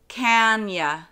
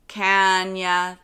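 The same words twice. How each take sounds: First: The word 'you' is reduced to 'ya'. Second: The same.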